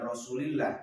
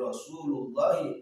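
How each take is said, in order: First: The vowel after Rasul is an i. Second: The vowel after Rasul is a u. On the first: The speaker calls it wrong. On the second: The speaker calls it right.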